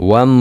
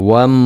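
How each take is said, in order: No difference in how they are said.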